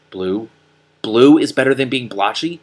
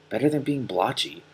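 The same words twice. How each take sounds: First: Rising, louder disbelief on Blue; incredulous echo. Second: Said in the usual way. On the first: Acted. Donkey Killer echoing Morwen in outrage. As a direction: throw the words back in disbelief.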